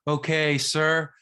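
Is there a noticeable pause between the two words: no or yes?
no. The words run together without a marked pause. "instead of saying"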